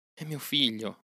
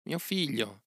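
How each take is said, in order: First: Higher, tender insistence on figlio; a mother claiming her son proudly; first of two loving insistences; fond insistence. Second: Higher, fading loving echo of figlio. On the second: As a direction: let it fall away tenderly. Mother repeats, softer. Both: Acted.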